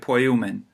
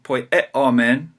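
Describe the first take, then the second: First: The middle vowels are blended into one diphthong. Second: The middle vowels are said as separate sounds. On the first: The speaker calls it right. "the Greeks would say poiumen. It's just a quick blending of those two sounds" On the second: The speaker calls it wrong. "instead of saying poieomen"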